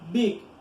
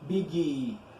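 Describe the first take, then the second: First: The word ends on its consonant with no vowel. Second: An extra vowel sound follows the final consonant. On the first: The speaker calls it right. "Short is very short" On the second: The speaker calls it wrong. "We don't say biggie"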